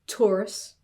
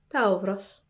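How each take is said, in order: First: The T is released with a puff of air. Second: The T is released without a puff of air. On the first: "You would feel a puff of air if you said Taurus in English" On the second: "then you won't feel a puff of air there"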